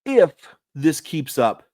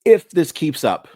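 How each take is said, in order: First: "If" set apart after a pause, "this keeps up" pressed a touch higher; slow, split If, then keeps up with weight; stress on IF and KEEPS UP. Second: "If" punched higher and louder, "keeps up" leaned on; loud opening If with weight on keeps up; stress on IF and KEEPS UP. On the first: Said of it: "I want to emphasize the if". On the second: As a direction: hit "If" hard, then press "keeps up". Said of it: "I want to emphasize both parts of that sentence". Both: Shown as a demonstration.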